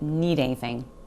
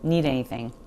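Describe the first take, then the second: First: The D sound disappears and the words run together. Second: The same.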